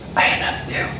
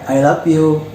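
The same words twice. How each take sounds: First: The phrase is said softly, slowly and whispery. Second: The phrase is said in a plain ordinary voice. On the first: It reaches the listener's feelings more deeply. The speaker calls it right. "lebih keperasaan ya" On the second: It is an ordinary statement. The speaker calls it wrong. "I love you biasa"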